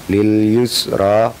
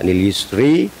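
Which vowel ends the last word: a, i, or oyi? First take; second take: a; i. First: The word ends in an a vowel. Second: The word ends in an i vowel. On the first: The speaker calls it right. "dibaca tetap" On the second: The speaker calls it wrong. "tidak lil yusri"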